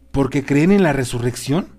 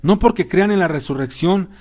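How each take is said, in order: First: Rising question on "resurrección". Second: Raised, emphatic vibrant voice; vibrant denial. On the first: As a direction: ask it, lifting the end of "resurrección". Questioner challenges Saulo's sentence. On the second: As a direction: deny it firmly, pitched high. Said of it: "contestó Saulo con voz vibrante". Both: A narrator's reading.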